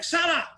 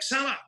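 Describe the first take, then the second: First: The name is said loudly with great excitement. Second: The name is said with raised, livelier energy. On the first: The player is about to score. "giving it the big licks" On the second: The player is in a dangerous position. "a bit more like Salah"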